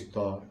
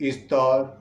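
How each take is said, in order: First: It is said from a low voice level. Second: It is said from a middle voice level. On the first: "নিম্ন স্তর" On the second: "মধ্য স্তর"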